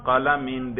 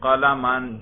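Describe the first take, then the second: First: قلمن said as qalamin, ending in -in; genitive ending demo. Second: قلمن said as qalaman, ending in -an; fatha ending demo. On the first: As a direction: sound a clear -in at the end of قلمن. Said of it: "جر پہ ذرا کریں". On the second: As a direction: sound a clear -an at the end of قلمن. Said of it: "فتحہ پہ ذرا تلفظ کریں". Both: Shown as a demonstration.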